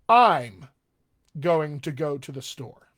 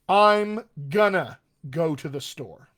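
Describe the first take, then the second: First: Words are slightly contracted, with mild reduction. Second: Words are contracted and moderately reduced together. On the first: "drift it over a little more informal" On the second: "A little more towards informal"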